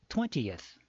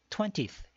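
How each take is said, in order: First: The final 'eth' is drawn out longer. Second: The final 'eth' is short and quick. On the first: The speaker calls it right. "eth 발음을 조금 더 끌어준다" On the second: The speaker calls it wrong. "우리가 흔히 twentieth 이렇게 발음을 하잖아요"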